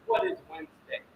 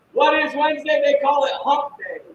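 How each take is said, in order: First: Soft, teasing build-up to the answer; teasing quiet question. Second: Louder, punchy repeat of the question; loud hype question. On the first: Host teases the viewers, soft and hushed. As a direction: hold it back, almost confiding. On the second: Host fires up the viewers, loud and punchy. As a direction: throw it out to the crowd. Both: Acted. Hyping up the livestream audience.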